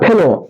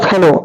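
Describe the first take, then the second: First: The first vowel is an 'e' sound. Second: The first vowel is an open 'a' sound. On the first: It is the standard form. "ফয়কার লয়কার ফেলো" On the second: It is the regional dialect form, used for emphasis. "ফজফলা আকার লয়কার ফেলো"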